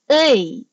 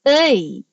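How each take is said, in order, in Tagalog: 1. Ang patinig ay binibigkas nang may nakaunat at nakangiting labi. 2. Ang patinig ay binibigkas nang may nakaunat at nakangiting labi.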